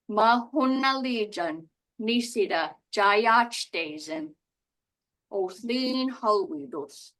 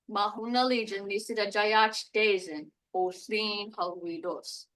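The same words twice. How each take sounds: First: The sentence is spoken at a slower pace. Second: The sentence is spoken at a normal, quicker pace.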